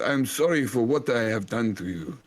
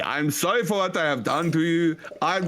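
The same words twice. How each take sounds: First: Put-on German accent. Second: Mock German accent, a little higher. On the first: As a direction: apologise like a hammy German elder. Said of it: "this is a German accent". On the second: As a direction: plead in a hammy German voice. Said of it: "This is a German accent".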